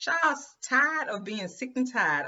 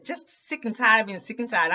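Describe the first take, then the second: First: Drawn out slowly and a bit higher, every word leaned on; slow emphatic repeat. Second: Said in the usual way. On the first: Shown as a demonstration. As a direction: let "sick and tired" land slowly, word by word.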